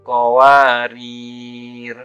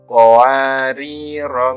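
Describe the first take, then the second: First: There is no final vowel. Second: The final vowel is short. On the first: The reader stops on the second word. "maka huruf ro dibaca sukun" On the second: The reading continues without stopping. "dibaca pendek kalau diwasolkan"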